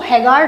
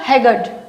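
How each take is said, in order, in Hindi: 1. इस शब्द में r की ध्वनि बोली जाती है। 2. इस शब्द में r की ध्वनि साइलेंट है। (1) "इसको हैगार्ड नहीं बोलेंगे" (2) "आर भी यहाँ पर साइलेंट रहेगा"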